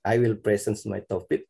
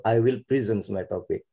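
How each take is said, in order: First: "present" as PREH-sens, open first e; noun-style pronunciation. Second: "present" as pri-ZENS, i first; verb-style pronunciation. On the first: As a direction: say "present" like the word for a gift. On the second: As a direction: say "present" with short i and a buzzed z. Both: Shown as a demonstration. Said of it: "Which is right?".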